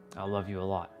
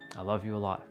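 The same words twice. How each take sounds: First: It is said with a hateful tone. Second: The same.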